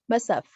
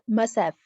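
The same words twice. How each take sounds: First: The word have is reduced and blended in. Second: The word have is reduced and blended in.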